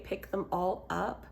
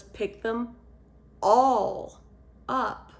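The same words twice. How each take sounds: First: Said in the usual way. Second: Put-on how a toddler hears the request, each part heavy; chopped into separate pieces. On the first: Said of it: "when my three-year-old heard me say". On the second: Shown as a demonstration. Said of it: "she thought what I was saying was".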